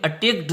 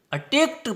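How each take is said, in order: First: अटैक्ड said with a d at the end, the wrong way. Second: अटैक्ट ends on a crisp t; attacked with t ending. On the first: Teacher showing the wrong form students avoid. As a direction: say अटैक्ड ending on d to show the mistake. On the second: Teacher giving the right form, careful demo. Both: Shown as a demonstration. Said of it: "अटैक्ड नहीं पढ़ेंगे".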